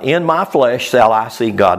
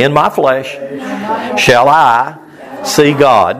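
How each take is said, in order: First: Said in the usual way. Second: Phrase by phrase, with pauses; call for repetition. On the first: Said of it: "Let's everybody say that". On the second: Shown as a demonstration. Preacher has everybody say the verse after him, broken into phrases. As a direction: lead a group recitation in short, separated chunks. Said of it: "Let's everybody say that. Say".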